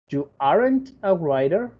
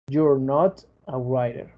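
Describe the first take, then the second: First: Are and not are joined into aren't. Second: You and are are joined into you're. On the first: "contraer el verbo to be con el not" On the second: "contraer el you con el are"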